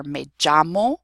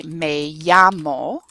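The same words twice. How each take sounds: First: "llamo" said JAH-mo, with an English j; regional ll variant. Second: "llamo" said YAH-mo, slow and loud; standard y pronunciation. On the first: Teacher warning of variation, "llamo" with a j sound. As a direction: harden the ll of "llamo" into a j. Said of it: "you will hear a lot of variation". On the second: Teacher showing how to say my name is, slow y in "llamo". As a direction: draw out "llamo" with a clean y glide. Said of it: "standardly pronounced as a y". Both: Shown as a demonstration.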